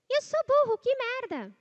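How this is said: It is said in a thin, high voice. "Agora você vai afinar essa voz"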